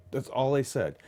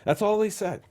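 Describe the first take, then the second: First: Said in the usual way. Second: High emphatic "they"; "That's all THEY said" with "they" pitched high; stress on they. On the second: Retold or imitated.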